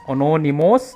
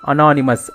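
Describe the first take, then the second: First: The opening syllables sound like 'ano'. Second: The opening syllables sound like 'ana'. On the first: The speaker calls it wrong. "They don't pronounce it as anonymous" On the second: The speaker calls it right. "but they pronounce it as anonymous. Only again na only it is ana"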